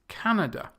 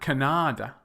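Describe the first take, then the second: First: The stress is on the first syllable. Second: The stress is on a later syllable. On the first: The speaker calls it right. "It's Canada" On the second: The speaker calls it wrong.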